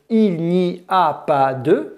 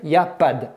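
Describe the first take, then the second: First: It is said with five full syllables. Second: It is squeezed into two syllables. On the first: "cinq syllabes" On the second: "deux syllabes"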